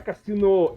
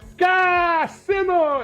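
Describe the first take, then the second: First: The opening K sound is plain and soft. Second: The opening K sound is hit hard and strong. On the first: The speaker calls it wrong. "você botou meio errado. Não é Cassino" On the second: The speaker calls it right. "é Cassino! E dá o K na frente"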